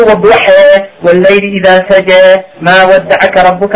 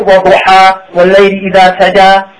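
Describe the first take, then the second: First: Fast chanted recitation, final alif leaned toward "e"; Quran recitation with imala. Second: Quick chanted recitation, open "a" endings; standard Quran recitation. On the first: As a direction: chant وَالضُّحَى ending in a long front "e", waḍ-ḍu-ḥe. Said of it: "Why can I do it like that?". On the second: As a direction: chant وَالضُّحَى with an open final "a", wad-du-ḥa. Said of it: "And why can I do". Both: Shown as a demonstration.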